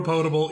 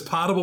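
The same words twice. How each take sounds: First: Potable said POE-table, with a long "oh"; long "oh" opening the word potable; second-vowel variant. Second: Potable said POT-able, with an "ah"; short open "ah" opening the word potable; first-vowel variant. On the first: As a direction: say potable with the "oh" of "boat". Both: Shown as a demonstration. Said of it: "who says".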